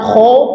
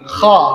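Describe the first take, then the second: First: The vowel is rounded, sounding like 'o'. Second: The vowel is open, sounding like 'a'. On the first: The speaker calls it wrong. "bukan kho" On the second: The speaker calls it right. "tapi kha"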